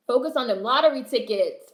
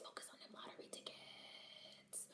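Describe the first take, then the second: First: Said in the usual way. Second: Breathy, slow whisper. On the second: Real, not acted. Vlogger urging chat to focus, in a whisper. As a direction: whisper it like a secret chant.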